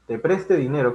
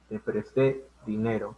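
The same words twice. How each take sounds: First: "preste" con golpe de voz en PRES; acento en la primera sílaba. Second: "presté" con la fuerza en TÉ final; acento en la última sílaba. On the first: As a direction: di "preste" como palabra llana, PRES-te. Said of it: "Se está hablando de otro tiempo". ("preste" con la fuerza al inicio, no al final) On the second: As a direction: alarga y marca el final de "presté": pres-TÉ. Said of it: "En cambio, esto lleva tilde". ("presté" agudo, dicho como ejemplo pausado) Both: Shown as a demonstration.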